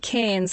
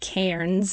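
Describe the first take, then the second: First: The r sound is dropped, rhyming with cans. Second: The r sound after the vowel is pronounced. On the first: "in Australia, the accent with the accent we say Cairns, like cans of tomato soup" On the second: "you guys would probably pronounce it Cairns because there is actually an R in there"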